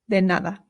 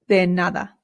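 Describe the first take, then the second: Both takes have the same delivery.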